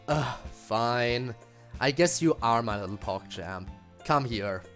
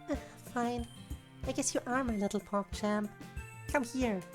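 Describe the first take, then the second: First: It is said in MC's voice. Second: It is said in Monika's voice.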